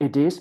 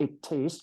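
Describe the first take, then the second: First: "It is" in a louder American accent. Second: "It is" in a softly said British accent. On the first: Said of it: "ถ้าเป็น American accent". (พูด "It is" สำเนียงอเมริกันดังขึ้น) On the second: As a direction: demonstrate a British accent on "It is", softer. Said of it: "อยากเป็นแบบ British accent". (พูด "It is" สำเนียงบริติชเบาๆ) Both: Shown as a demonstration.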